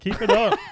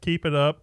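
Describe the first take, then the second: First: It is said in a put-on Scottish accent. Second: It is said in the speaker's normal accent.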